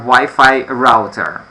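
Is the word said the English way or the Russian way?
English. It is said with an English pronunciation. "but in English you have Wi-Fi router"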